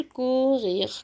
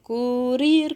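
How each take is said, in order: First: "كورير" with throaty gh for each r; guttural French R. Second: "كورير" with tongue-tip r's; rolled R. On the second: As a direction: tap both ر sounds in "كورير". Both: Shown as a demonstration. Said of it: "ممكن الار دي انطقها غ".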